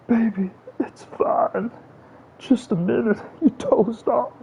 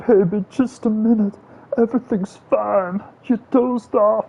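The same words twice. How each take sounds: First: Very high, drawn-out cooing voice; sweet soothing baby talk. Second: Very high, slow, cooing voice to a loved one; sweet soothing baby talk. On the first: Gamer imagining cooing to Savannah, very high slow baby voice. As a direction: coo it even slower and sweeter. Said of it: "Imagine if Savannah comes in here". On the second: Gamer cooing at his viewer as if waking a partner, high sugary baby voice. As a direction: coo it like soothing a sleepy partner. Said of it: "Imagine if somebody talked to you like that". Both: Pretend.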